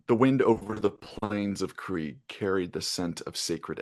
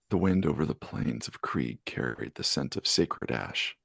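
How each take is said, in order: First: It is read in a plain reading voice. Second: It is read in a sultry, sexy voice.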